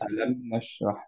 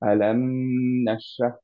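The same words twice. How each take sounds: First: The final m is held only briefly. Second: The final m is held for a long time. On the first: The speaker calls it right. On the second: The speaker calls it wrong.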